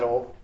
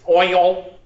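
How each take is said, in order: First: The word is said in a casual, everyday way. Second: The word is said slowly and carefully enunciated. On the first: The speaker calls it wrong. "I was not pronouncing it correctly" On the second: The speaker calls it right. "She pronounced O I L, oil"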